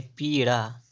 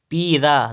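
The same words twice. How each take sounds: First: "पीड़ा" with retroflex ṛ; correct flap. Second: "पीड़ा" with plain dental r/d, piidaa; wrong middle sound. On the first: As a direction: flap a curled tongue in "पीड़ा". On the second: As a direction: say "पीड़ा" without the curled flap. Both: Shown as a demonstration. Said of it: "पीड़ा नहीं".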